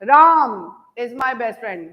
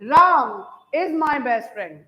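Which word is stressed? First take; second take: Ram; Ram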